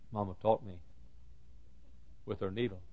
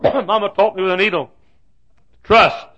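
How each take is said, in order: First: Very soft, halting delivery; hushed recollection. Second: High, loud declaration; emphatic preaching. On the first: Preacher remembering his mama's lesson, hushed. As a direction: say it quietly, pausing midway. Quiet first take of refrain. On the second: Preacher driving home his mama's lesson, loud and high. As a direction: proclaim the lesson at full force. Refrain repeated at full force. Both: Real, not acted.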